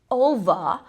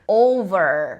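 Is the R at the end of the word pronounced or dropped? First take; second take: dropped; pronounced. First: The final R is dropped. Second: The final R is strongly pronounced. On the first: "a forma que os britânicos pronunciariam" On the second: "esse R não é pronunciado como"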